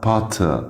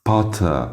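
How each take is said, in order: The two takes are said the same way.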